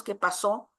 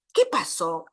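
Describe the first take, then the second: First: ¿qué pasó? with the weight on pasó and a rising end; rising question. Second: ¿Qué pasó? with the weight on Qué and a falling end; falling question. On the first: Lecturer wondering about the families of origin, stress on pasó rising. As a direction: ask it open, lifting on pasó. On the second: Lecturer repeating the question, stressing Qué and falling. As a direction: press on Qué and let it drop. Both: Shown as a demonstration. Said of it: "pienso en la familia de origen de ambos".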